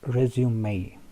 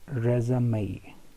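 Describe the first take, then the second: First: It is said with a British pronunciation. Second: It is said with an American pronunciation. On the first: "The British uh, pronounce it like resume" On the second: "Americans pronounce it resume"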